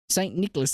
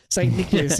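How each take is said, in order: First: It is said in a British accent. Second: It is said in an Australian accent.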